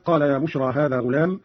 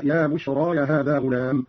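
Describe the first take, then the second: First: Said in the usual way. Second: بشرى extended to "bushraaya"; added open ya. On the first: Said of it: "قوله تعالى". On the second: Shown as a demonstration. Teacher demonstrating Qalun's reading, بشرى said "bushraaya". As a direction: finish بشرى with an extra "ya" before هذا. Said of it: "مع فتح الياء هكذا".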